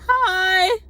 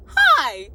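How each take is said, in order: First: High, loud, drawn-out hi; stretched, squealed greeting; young woman's greeting. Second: Loud hi, pitched up a little; punched-out, over-loud hello; exactly how said. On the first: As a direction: imitate her high-pitched hello. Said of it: "She's like". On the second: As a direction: re-enact a loud, short greeting. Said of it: "That's exactly how I said it too". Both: Retold or imitated.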